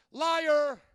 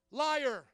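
First: Louder, a flat verdict; accusing "Liar"; loud accusation. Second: Said in the usual way. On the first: Real, not acted. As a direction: call it out like a judge. Pastor calls out liars.

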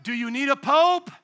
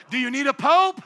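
No difference in how they are said.

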